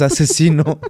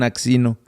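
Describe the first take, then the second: First: The name is said as 'Asesino' with an s sound. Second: The name is said as 'Aksino' with a ks sound. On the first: The speaker calls it right. "Pero es asesino" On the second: The speaker calls it wrong. "hay gente que no sabe cómo se pronuncia y le dicen Axino"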